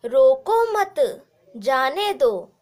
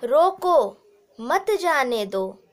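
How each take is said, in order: First: There is a pause right after मत. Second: There is a pause right after रोको.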